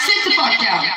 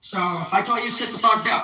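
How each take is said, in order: First: Louder, laughing "sit the fuck down"; laughing command. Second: Said in the usual way. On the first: Real, not acted. Vlogger acting the boss, laughing as she orders.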